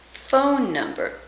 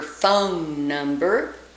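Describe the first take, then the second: First: The vowel in phone is tighter and rounder. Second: The vowel in phone is wide and open. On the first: The speaker calls it right. "we're going to say" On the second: The speaker calls it wrong. "So Texans say"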